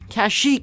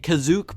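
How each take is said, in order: First: The name is said like Ka-sheek. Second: The name is said like Ka-zook. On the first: "the most widely accepted movie-accurate version" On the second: "they pronounced it Kazook"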